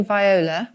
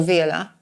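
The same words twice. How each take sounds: First: "viola" said vy-OH-la; first pronunciation option. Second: "viola" said vee-OH-la; alternative pronunciation. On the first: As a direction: say "viola" starting like "vie". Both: Shown as a demonstration. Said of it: "not quite sure how you pronounce".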